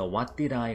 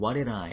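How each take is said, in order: First: Each word is said fully and separately. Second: The words are run together and reduced. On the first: "What did I 가 아니고" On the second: "이렇게 발음돼 버렸고요"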